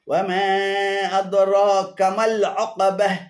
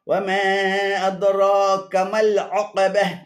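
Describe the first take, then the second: No difference in how they are said.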